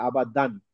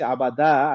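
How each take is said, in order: First: "আবাদান" closing on a clear n; tanween reading. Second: "আবাদা" ending on an open long aa, no n; read as written. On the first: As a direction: say "আবাদান", ending the last syllable in noon. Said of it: "আলিফের কারণে কিন্তু আবাদান হয়". ("আবাদান", শেষে তানউইনের নুন উচ্চারণ) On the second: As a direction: say "আবাদা", leaving the last vowel open. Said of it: "এখানে দেখে ভাবছি আবাদা". ("আবাদা", শেষে নুন ছাড়া খোলা আ) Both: Shown as a demonstration.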